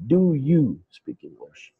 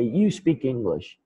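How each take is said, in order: First: "Do" pushed up and leaned on at the start of "Do you speak English?"; stress on DO. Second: Said in the usual way. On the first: Shown as a demonstration. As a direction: lead with a clearly stressed "Do". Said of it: "the correct way of asking questions". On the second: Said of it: "if I forget to use do".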